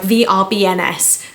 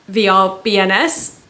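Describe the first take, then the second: First: The letters are said in a confident tone. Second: The letters are said in an unsure tone. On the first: The reader is certain of the letters. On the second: The reader now doubts the letters.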